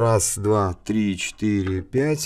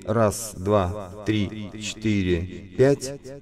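First: The voice has a sweeping phaser effect. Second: The voice has chorus with delay echoes. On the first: "это фейзеры" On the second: "это хорусы плюс дилеи"

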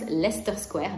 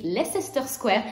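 First: Leicester is said with two syllables. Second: Leicester is said with three syllables. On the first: The speaker calls it right. "vous skippez la syllabe du milieu et vous dites simplement Leicester Square" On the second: The speaker calls it wrong. "ça s'écrit Leicester Square"

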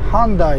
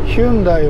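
First: The name begins with a 'han' sound. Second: The name begins with a 'hyun' sound. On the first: "英語でハンダイって言います" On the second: "ヒュンダイは"

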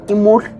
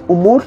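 First: The word begins with an i vowel. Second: The word begins with a u vowel. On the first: This is the form used elsewhere. "en otro lado es imur" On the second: This is the local form used here. "aquí en Chimal Centro es umur"

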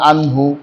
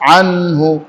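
First: The n sound is blurred into the h. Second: The n sound is pronounced clearly and distinctly. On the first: The speaker calls it wrong. "অনেকেই বলেন আনহু" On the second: The speaker calls it right. "আনহু ইজহার স্পষ্ট করব"

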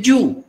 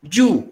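No difference in how they are said.

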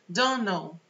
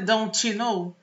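First: The T at the end of don't is dropped. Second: The T at the end of don't is pronounced. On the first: The speaker calls it right. "T e final de palavra não tá com nada" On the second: The speaker calls it wrong. "Tá vendo que não é don't know?"

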